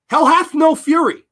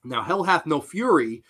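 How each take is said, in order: First: Loud, high dramatic declaration; emphatic proclamation. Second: Said in the usual way. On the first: Real, not acted. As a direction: proclaim it louder and higher for effect. Repeats saying with dramatic emphasis.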